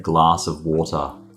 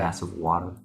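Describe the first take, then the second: First: It is said in a non-American accent. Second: It is said in an American accent. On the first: "We say glass of water" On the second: "It's a phrase in U S accent"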